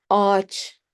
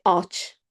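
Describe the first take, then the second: First: Ağaç as one long a; silent ğ. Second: Ağaç with a short a, not stretched; wrong pronunciation. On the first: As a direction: draw out the a of ağaç, no g sound. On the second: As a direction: say ağaç too short, the mistaken way. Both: Shown as a demonstration. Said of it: "We don't say ağaç".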